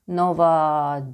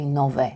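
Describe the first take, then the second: First: The word ends with an 'ah' vowel. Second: The word ends with an 'eh' vowel. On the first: The speaker calls it wrong. "not nova" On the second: The speaker calls it right. "I was supposed to say nove"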